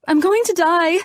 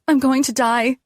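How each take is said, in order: First: Far higher, louder hysterical cry; rising panic. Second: High, frightened cry; panicking. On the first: Patient spiraling into panic, much higher and louder. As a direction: let the panic break loose. Panic attack in hospital bed. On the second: Panicking patient crying out in bed, high and frightened. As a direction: sound sure you're dying. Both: A narrator's reading.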